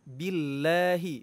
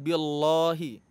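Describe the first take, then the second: First: The L sound is light and thin. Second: The L sound is heavy and thick. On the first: The speaker calls it right. "kita baca tarqiq atau tipis" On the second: The speaker calls it wrong. "bukan billahi ... huruf lamnya itu tebal"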